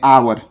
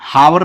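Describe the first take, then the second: First: The word starts with a vowel, no h. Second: The word starts with an h sound. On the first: The speaker calls it right. "आवर पढ़ते हैं" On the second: The speaker calls it wrong. "हावर नहीं पढ़ते हैं"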